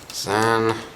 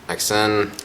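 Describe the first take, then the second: First: The name is said as one syllable. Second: The name is said as separate letters. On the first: This is the official pronunciation. "Apparently the official pronunciation is Zan" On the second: Some people say it this way. "Some people can pronounce it X N"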